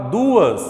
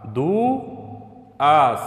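First: Said in the usual way. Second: "Duas" split as du... as; syllable by syllable. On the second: Shown as a demonstration. Teacher separating the word for pupils, syllable by syllable. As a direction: break "Duas" after du, with a clear pause. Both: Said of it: "nesse caso ela vai se separar".

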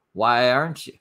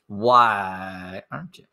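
First: Said in the usual way. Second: Slow, stretched, rising disbelief; drawn-out repeat. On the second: Real, not acted. Repeating the question to the vlogger, slow and incredulous. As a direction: drag it out in disbelief.

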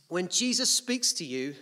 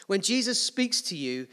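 The two takes are said the same way.

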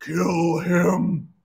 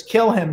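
First: Drawn-out demonic command; slow, menacing devil voice; big devil voice. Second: Said in the usual way. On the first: Acted. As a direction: order it as a huge Satan, stretching each word. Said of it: "The big devil goes". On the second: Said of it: "this time when it says".

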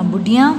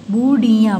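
First: Said in the usual way. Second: बुढ़िया with each syllable held. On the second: Shown as a demonstration. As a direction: sound out बुढ़िया. (बुढ़िया को तोड़-तोड़ कर) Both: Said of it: "फिर ये सारे बोलने".

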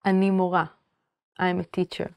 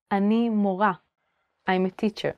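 No difference in how they are said.

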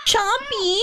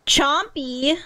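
First: "Chompy" high-pitched, falling at the end; delighted exclamation. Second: "Chompy" rising like a question. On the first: Repeats cat's name in delight. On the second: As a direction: try out "Chompy" with an upward lilt. Reads a cat's name. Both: Real, not acted.

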